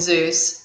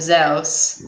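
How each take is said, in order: First: The name is said the American English way. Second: The name is said the Italian way. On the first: "we call him Zeus" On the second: "in Italian they call him Zeus"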